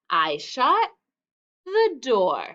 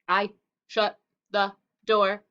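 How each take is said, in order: First: The words flow together smoothly without breaks. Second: Each word is said separately, like a robot. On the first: The speaker calls it right. "We want to say it smoothly" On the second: The speaker calls it wrong. "so that we don't say it like a robot"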